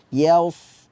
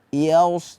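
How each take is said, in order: No difference in how they are said.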